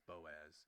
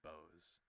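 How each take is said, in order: First: The O and A are said separately. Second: The vowels merge into one syllable. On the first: The speaker calls it right. "say the O and the A apart from each other, not as one big" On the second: The speaker calls it wrong. "I think last time I said Bose"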